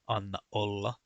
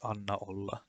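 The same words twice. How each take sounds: First: A glottal stop separates the two words. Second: The two words run together without a break. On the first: The speaker calls it right. "they are pronounced as Anna olla" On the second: The speaker calls it wrong. "they are not pronounced as Anna olla"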